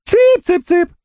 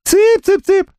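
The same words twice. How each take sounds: First: Mock chick call in a thin piping voice; тонким голосом. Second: Very high thin squeaky voice; тонким голосом. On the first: (тонким писклявым голосом, дразня) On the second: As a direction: pipe it up like calling chickens. (писклявым тонким голосом) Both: A narrator's reading. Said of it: "Солёный тонким голосом".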